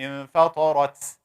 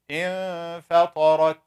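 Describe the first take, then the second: First: The final t ends in a strong s-like hiss. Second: The final t ends in a light, barely audible breath. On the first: The speaker calls it wrong. "That's scene. You get some scene" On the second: The speaker calls it right. "just a little bit of air. Hems, whispering"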